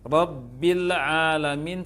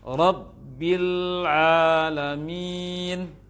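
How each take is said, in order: First: The l sound bounces out with a quick release. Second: The l sound is held, then released slowly. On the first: The speaker calls it wrong. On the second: The speaker calls it right.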